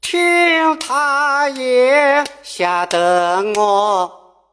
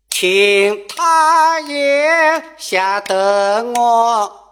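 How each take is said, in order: First: 听 sung with a level first tone, high and slow; first-tone ting. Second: 听 sung with a third tone, high and slow; third-tone ting. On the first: Teacher shows the modern first-tone 听. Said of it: "按一声唱". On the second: Teacher shows the traditional third-tone 听. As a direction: sing 听 dipping like a third tone. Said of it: "按三声唱". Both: Shown as a demonstration.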